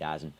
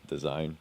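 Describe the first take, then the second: First: The name is said in a shortened, clipped form. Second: The name is said in its full form. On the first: "I'm a bit too lazy to do the full pronunciation" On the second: "it's pronounced as Dazone"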